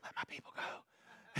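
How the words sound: It is said in a quiet whisper.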